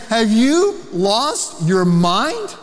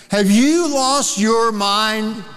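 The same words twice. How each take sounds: First: Slow, pointed pastoral question; Paul pleading for the Galatians to wake up; drawn-out, disbelieving question; incredulous rebuke. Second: Slow, gentle but pointed question; arm-around-the-shoulder reality check, slowed down; incredulous rebuke. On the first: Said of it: "And he's saying". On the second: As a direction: ask it like a friend shaking sense into you. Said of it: "Put his arm around him and said". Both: Retold or imitated.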